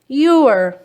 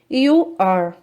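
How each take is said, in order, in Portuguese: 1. É dito contraído em uma sílaba curta. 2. É dito como duas palavras completas e separadas.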